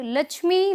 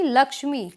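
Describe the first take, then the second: First: लक्ष्मी said as "lachhmi", higher; the mistaken छ in लक्ष्मी; wrong pronunciation. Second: लक्ष्मी with a clear "ksh"; correct pronunciation. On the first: Teacher shows the wrong लक्ष्मी, pitched higher. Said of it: "ये छ बोला जाता है". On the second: Teacher gives the right लक्ष्मी. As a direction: say लक्ष्मी with क्ष. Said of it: "श की जो ध्वनि है". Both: Shown as a demonstration.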